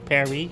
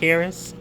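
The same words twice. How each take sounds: First: It is said in a French accent. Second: It is said in a plain English accent.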